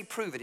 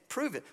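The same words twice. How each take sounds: First: Said in the usual way. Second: "Prove it" pitched high, a taunting dare; mocking challenge. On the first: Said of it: "Why did they say". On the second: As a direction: toss "Prove it" up as a sneering demand. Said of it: "But they say".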